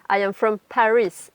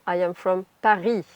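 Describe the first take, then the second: First: The R in Paris is an English R. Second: The R in Paris is a French throat R. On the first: The speaker calls it right. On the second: The speaker calls it wrong.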